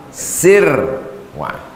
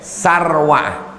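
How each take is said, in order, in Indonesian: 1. Suku kata pertama memiliki vokal i. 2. Suku kata pertama memiliki vokal a. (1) "bikasri sin, sinnya baris bawah" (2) "Kalau ada yang baca baris atas boleh"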